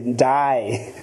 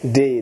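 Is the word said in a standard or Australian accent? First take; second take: Australian; standard. First: It is said in an Australian accent. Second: It is said in a standard accent.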